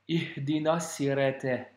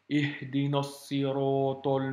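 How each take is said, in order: First: The s and t sounds are light and plain. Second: The s and t sounds are heavy and emphatic. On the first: The speaker calls it wrong. "Imagine-toi prononcer comme ça. C'est pas la même chose" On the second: The speaker calls it right. "c'est des lettres avec emphase, qu'il faut prononcer avec emphase"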